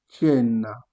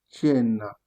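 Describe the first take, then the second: No difference in how they are said.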